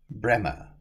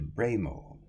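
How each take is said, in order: First: The name is said short, as Bremer. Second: The name is said as spelled, Bray-more.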